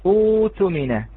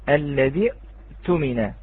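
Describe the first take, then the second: First: A long u vowel replaces the glottal stop. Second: A glottal stop closes the first syllable. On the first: The word starts fresh after a stop. "أصبح في حال الابتداء فقط" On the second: The word is joined to the word before it. "بهمزة قطعية ساكنة"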